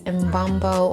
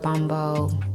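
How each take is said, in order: First: The name starts with an audible M sound. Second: The name starts directly with a B sound. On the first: "if it's Mbumbo" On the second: "I'm saying it as if the M is silent"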